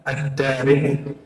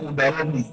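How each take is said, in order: First: The name begins with an 'ad' sound. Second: The name begins with a 'u' sound. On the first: The speaker calls it right. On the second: The speaker calls it wrong.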